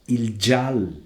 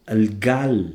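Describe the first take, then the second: First: The word starts with a soft j sound. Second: The word starts with a hard g sound. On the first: This is the Friulian form. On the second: This is the Italian-like form.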